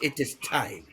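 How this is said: It is said imitating Rafiki's voice.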